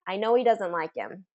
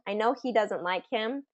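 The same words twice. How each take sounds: First: The H sounds in he and him are dropped. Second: The H sounds in he and him are pronounced. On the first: "that's a tendency, is to delete that H in these function words" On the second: "it doesn't sound abnormal to say the H sound"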